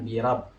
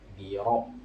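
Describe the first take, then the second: First: The r is pronounced light and thin. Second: The r is pronounced heavy and thick. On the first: The speaker calls it wrong. "Jangan birab" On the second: The speaker calls it right. "Harusnya tebal"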